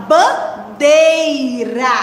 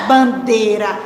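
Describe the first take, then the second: First: "bandeira" very slowly as ban... dei... ra; careful syllable-by-syllable. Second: "bandeira" said as "bandera", syllables joined; mispronounced example. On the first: Teacher correcting pupils' pronunciation, "bandeira" slow and fully sounded, ban-dei-ra. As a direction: stretch "bandeira" into three syllables with a full EI. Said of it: "a gente fala bandeira". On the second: Teacher rejecting the spoken form, "bandeira" said as "bandera". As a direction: say "bandeira" with the I of DEI dropped. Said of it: "mas não é bandeira". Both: Shown as a demonstration.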